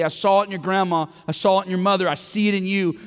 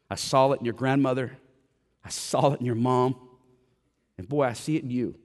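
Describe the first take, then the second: First: Loud, higher preached quote of Paul; Paul urging Timothy, preached loud and high; passionate preaching. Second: Said in the usual way. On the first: Retold or imitated. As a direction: call it out to the room like Paul urging his son. Paul encouraging Timothy, preached retelling.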